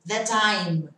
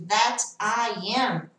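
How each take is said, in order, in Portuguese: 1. A frase é contraída e ligada. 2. A frase é dita por completo, sem redução. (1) "vai abreviar aqui" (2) "ao invés de that I am"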